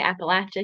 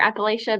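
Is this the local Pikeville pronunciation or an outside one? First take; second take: local; outside. First: It is said the way locals say it. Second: It is said the way outsiders say it.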